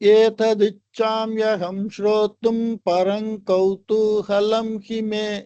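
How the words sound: It runs through as one unbroken phrase. The two quarters are read as one half-verse. "முழுசா ஒரே சரணமா படிக்கிறது"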